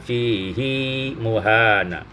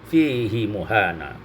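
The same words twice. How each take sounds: First: The vowel after h is lengthened. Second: The vowel after h is kept short. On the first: "riwayat Hafaz ada silahnya" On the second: "Imam Hamzah membaca kasrah tanpa silah"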